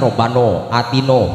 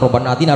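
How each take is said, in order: First: The vowels are said as a rounded 'o'. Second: The vowels are said as an open 'a'. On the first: This is how Lebanese people say it. "Orang Libanon bilang" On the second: This is how Indonesians say it.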